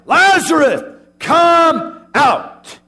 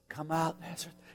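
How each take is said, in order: First: It is said loudly, crying out. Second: It is said softly and gently.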